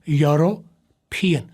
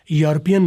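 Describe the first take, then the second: First: "یوروپین" slowly as yo-ro-pi-en, each part clear; right pronunciation. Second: "یورپین" said quickly as jor-pi-en, the error; wrong pronunciation. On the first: Teacher slowly modelling the right pronunciation. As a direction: stretch "یوروپین" out slowly, syllable by syllable. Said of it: "یہ word یورو اور پین". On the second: Teacher showing the wrong way to say it. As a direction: clip "یورپین" short as the mistake. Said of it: "نہیں". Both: Shown as a demonstration.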